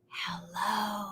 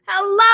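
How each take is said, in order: First: It is said very quietly. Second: It is said very loudly.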